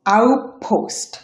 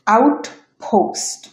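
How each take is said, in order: First: আউটপোস্ট said "aup-post", no t; assimilated T. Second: Said in the usual way. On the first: Shown as a demonstration. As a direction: merge the t of আউটপোস্ট into the following p. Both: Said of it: "এটা উচ্চারণ হবে".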